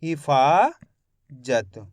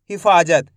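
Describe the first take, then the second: First: हिफाजत very slow, हिफा, pause, then जत lower; slowly blended syllables. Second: Said in the usual way. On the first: Shown as a demonstration. Teacher puts the spelt word together, slowly blended syllables. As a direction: draw out हिफाजत in two parts. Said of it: "तो मिलके बन जाएगा". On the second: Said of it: "अब अपन लिखेंगे".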